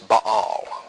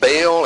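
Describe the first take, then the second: First: The name is said the Hebrew way. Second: The name is said the common English way. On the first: "In Hebrew, it's Baal" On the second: "we often pronounce it Baal"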